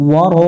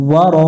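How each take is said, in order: The two takes are said the same way.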